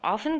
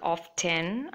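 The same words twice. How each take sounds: First: The T is silent in the middle. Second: The T sound is pronounced in the middle. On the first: "the T is silent" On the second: "can be said like often"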